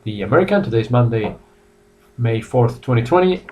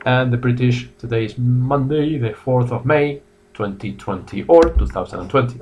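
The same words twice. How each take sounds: First: American way of saying the date. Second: British way of saying the date. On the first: Teacher showing students the American date format, clearly. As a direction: say it the American way, month first. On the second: Teacher showing students the British date format, clearly. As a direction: say it the British way, day first. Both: Shown as a demonstration. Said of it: "so two ways to say the date".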